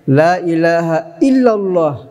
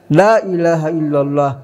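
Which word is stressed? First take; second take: illa; la. First: The stress falls on illa. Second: The stress falls on la. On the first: The emphasis is on the affirmation. "kita dalam syasyidiyah" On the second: The emphasis is on the negation. "mungkin tarikat lain tekanannya di la"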